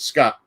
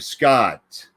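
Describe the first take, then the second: First: The final T is clipped short. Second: The final T is held and carried through. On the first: The name is spelled with one T. "because there's only one T" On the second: The name is spelled with two Ts. "the carry through Scott"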